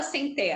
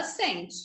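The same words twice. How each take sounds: First: "sem té" with open, stressed TÉ; stress on last syllable. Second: Said in the usual way. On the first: Shown as a demonstration. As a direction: put the weight wrongly on the end of "sem té". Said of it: "Ninguém fala sem té". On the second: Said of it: "a gente fala sente".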